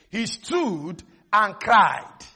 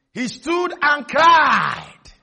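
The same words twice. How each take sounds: First: Said in the usual way. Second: Rising to a long, loud "cried"; building shout. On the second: Shown as a demonstration. Preacher showing how Goliath cried to the armies, building shout. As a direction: stretch "cried" into a ringing shout.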